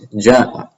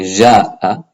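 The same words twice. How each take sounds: First: The first consonant is sharp, with a stop. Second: The first consonant is soft, without a stop. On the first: The speaker calls it right. "It should be sharp" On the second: The speaker calls it wrong. "Arabic speakers will often pronounce this as a soft Jim"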